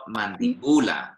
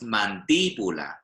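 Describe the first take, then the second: First: The stress is on the syllable bu. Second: The stress is on the syllable di. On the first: The speaker calls it wrong. "It's not mandibula" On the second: The speaker calls it right. "So here it's mandíbula"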